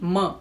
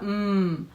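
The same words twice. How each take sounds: First: The consonant is followed by a short vowel. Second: The consonant is said bare without any vowel. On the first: The speaker calls it wrong. "ना कि म" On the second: The speaker calls it right. "म में से हम अ निकाल देंगे तो सिर्फ जो बचेगा वो होगा म"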